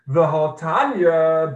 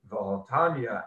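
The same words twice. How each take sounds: First: It is said with a questioning, challenging tune. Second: It is said in a relaxed, stating tune. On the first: It raises an objection or attack. The speaker calls it wrong. "Instead of reading it, v'hotanya, but surely we have learned, you don't read it like that" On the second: It brings supporting proof. The speaker calls it right. "You read it, v'hotanya, and indeed we have learned in a braisa"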